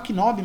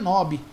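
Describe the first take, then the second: First: The initial K is pronounced. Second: The initial K is silent. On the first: This is how people commonly say it. The speaker calls it wrong. "A gente fala knob" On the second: This is the correct English pronunciation. The speaker calls it right. "mas na verdade é knob, porque o K em inglês, quando começa uma, uma palavra, ele não é pronunciado"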